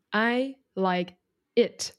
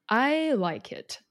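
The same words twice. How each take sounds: First: I like it 每个字一样重、一个一个分开，慢速; 粒粒分明地说 I like it，语尾上扬; word by word, evenly stressed. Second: I like it 的 I 拉高加重，慢慢说; 把 I 顶高、拉长再落下，慢说; stress on I. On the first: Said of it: "粒粒分明嘛". (每个字分开重读，慢速上扬) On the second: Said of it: "或者是把它分一个一个，粒粒分明嘛". (重读代名词 I，慢速下降语调) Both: Shown as a demonstration.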